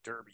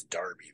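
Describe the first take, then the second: First: Said in the usual way. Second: Derby said as DAR-bee; derby rhyming with Barbie; British pronunciation. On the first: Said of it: "I think we say derby here". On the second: Shown as a demonstration. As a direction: say derby with AR, as in car. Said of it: "Maybe it's derby there".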